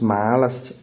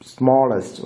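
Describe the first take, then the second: First: The first vowel sounds like the 'a' in 'cat'. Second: The first vowel sounds like the 'a' in 'call'. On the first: The speaker calls it wrong. "it is not smallest" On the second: The speaker calls it right. "but it is smallest"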